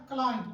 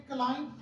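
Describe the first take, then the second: First: "क्लाइंब" as "klime", ending on a nasal; correct silent b. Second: "क्लाइंब" with the final b sounded as a stop; common mispronunciation. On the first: Shown as a demonstration. Teacher showing how to teach children, silent b. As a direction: say "क्लाइंब" with the final b left silent. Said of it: "आपने इसे बच्चों को पढ़ाना है". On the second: Retold or imitated. Teacher imitating how people misread it, mispronounced. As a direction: say "क्लाइंब" closing on a popped b or p. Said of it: "ये अक्सर लोग गलत पढ़ते हैं".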